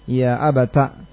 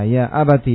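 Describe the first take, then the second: First: The phrase ends in a short a vowel. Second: The phrase ends in a short i vowel. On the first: "dengan menfathah ta'nya" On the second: "membacanya dengan mengganti ya-nya dengan ta"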